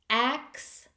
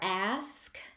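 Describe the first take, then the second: First: The word ends with ks, like axe. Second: The word ends with sk, standard ask. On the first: The speaker calls it wrong. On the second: The speaker calls it right.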